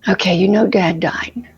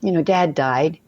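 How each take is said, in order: First: It sounds like someone already mid-emotion. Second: It sounds like a line starting from nothing.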